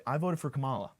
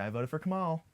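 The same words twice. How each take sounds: First: Said in the usual way. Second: Higher-pitched devoted supporter voice; true Kamala supporter. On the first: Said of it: "But I don't say it like that". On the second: Acted. Comic telling women who he voted for, as a true supporter. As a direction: lift it like a proud devotee. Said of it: "I say it like a true Kamala supporter".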